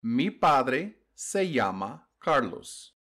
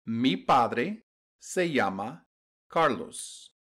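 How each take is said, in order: Both takes have the same delivery.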